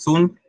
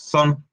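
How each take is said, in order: First: The vowel sounds like a Spanish 'u'. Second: The vowel sounds like a Spanish 'o'. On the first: "no es una U ... no decimos sun" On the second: "ni tampoco es una O ... ni decimos son"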